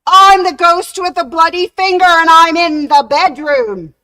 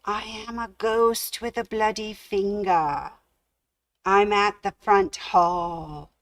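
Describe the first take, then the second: First: Very loud, much higher ghostly howl; booming ghost wail. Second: Ghostly moan. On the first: Ghost bursting into the bedroom, booming wail. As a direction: howl at full force to terrify him. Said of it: "the door creaked open". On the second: Ghost moaning to the sleeping man from downstairs, faint. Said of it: "someone moaning these words". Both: Acted.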